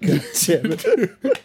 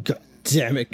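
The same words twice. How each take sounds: First: "God damn it," drawn out slowly, higher and laughing; mock Patrick Stewart. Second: Said in the usual way. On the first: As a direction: stretch "God damn it" like a spoofed raging coach. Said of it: "spoofs it perfectly with Patrick Stewart". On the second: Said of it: "He's walking around going".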